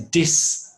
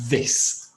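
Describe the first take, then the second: First: It begins with a d sound. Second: It begins with a th sound. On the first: The speaker calls it wrong. "They pronounce it with something like a D" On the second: The speaker calls it right. "the correct pronunciation is this, with the tongue just outside"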